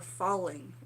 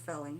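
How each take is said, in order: First: The vowel sounds like the one in 'fall'. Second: The vowel sounds like the one in 'fell'. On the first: This is how the speaker's family says it. "In my family, we would say" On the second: This is how the written source says it. "they're saying before felling. Maybe that's the proper pronunciation"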